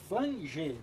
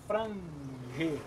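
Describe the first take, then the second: First: The word is said with an L sound. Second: The word is said with an R sound. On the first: The speaker calls it right. "é flange" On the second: The speaker calls it wrong. "não é frange"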